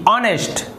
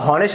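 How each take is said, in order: First: The word begins directly with a vowel sound. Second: The word begins with an audible h sound. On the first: The speaker calls it right. "यहाँ पर भी जो H है वो silent है" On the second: The speaker calls it wrong. "लेकिन इसे हॉनेस्ट नहीं कहते"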